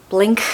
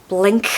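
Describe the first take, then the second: The two takes are said the same way.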